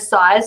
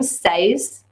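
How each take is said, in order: First: The vowel sounds like the one in eye. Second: The vowel sounds like the one in bed. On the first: The speaker calls it right. "size like the weapon" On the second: The speaker calls it wrong. "she calls them says"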